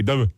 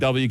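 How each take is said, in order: First: The letter name is clipped and mumbled. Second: The letter name is said in full, clearly. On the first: The speaker calls it wrong. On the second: The speaker calls it right.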